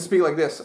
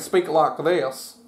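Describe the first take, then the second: First: Spoken in a plain, usual accent. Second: Spoken with a slight southern accent.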